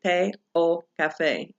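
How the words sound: The words are split apart with small breaks. The speaker calls it wrong. "you don't want to separate"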